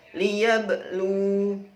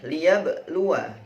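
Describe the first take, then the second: First: The word ends with a long u sound. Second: The word ends with a short wa syllable. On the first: The reading stops at this word. "Kalau wakof wanya disukun sehingga lu-nya menjadi panjang" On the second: The reading continues into the next word. "sama wanya dibaca pendek"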